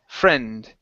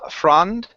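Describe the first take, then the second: First: The vowel is a short eh sound. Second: The vowel is an open ah sound. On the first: The speaker calls it right. "So it's eh" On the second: The speaker calls it wrong. "more of an ah sound into it"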